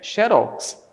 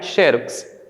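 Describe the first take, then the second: First: The stress falls on the last syllable. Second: The stress falls on the first syllable. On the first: The speaker calls it right. "é xerox. Então aqui ela é oxítona" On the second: The speaker calls it wrong. "a pronúncia correta desta palavra aqui não é xerox"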